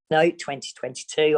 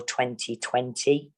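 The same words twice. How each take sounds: First: "twenty-two" said a bit higher and louder as the fix; correcting herself. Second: Said in the usual way. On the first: Real, not acted.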